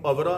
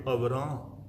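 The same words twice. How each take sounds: First: ਅਵਰਾ ending in an oral "aa"; ਅਵਰਾ without nasal. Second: ਅਵਰਾਂ ending in a nasalised "aan"; ਅਵਰਾਂ with nasal ending. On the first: Preacher showing listeners the misreading, ਅਵਰਾ without the nasal ending. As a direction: say ਅਵਰਾ with no nasal on the last vowel. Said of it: "ਇਹਨੂੰ ਅਵਰਾ ਨਹੀਂ ਪੜ੍ਹਨਾ". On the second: Preacher teaching listeners the scripture reading, ਅਵਰਾਂ with nasal final vowel. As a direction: nasalise the last vowel of ਅਵਰਾਂ, as the bindi marks. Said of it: "ਬਿੰਦੀ ਲਗਾ ਕੇ ਪੜ੍ਹਾਂਗੇ". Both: Shown as a demonstration.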